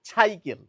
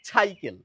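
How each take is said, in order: No difference in how they are said.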